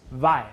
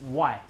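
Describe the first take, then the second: First: "Y" with teeth on lip, a buzzed V onset; Beijing V sound. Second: "Y" with a W glide onset; Taiwan W sound. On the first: Teacher shows Beijing pronunciation, V-onset "Y". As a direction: say "Y" starting with a V, like "vai". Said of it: "But in Beijing or in the China". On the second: Teacher shows Taiwan pronunciation, W-onset "Y". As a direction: say "Y" starting with a rounded W, like "why". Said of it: "in Taiwan, we pronounce". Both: Shown as a demonstration.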